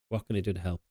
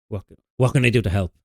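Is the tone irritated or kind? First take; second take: kind; irritated. First: It sounds warm and kind. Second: It sounds irritated and impatient.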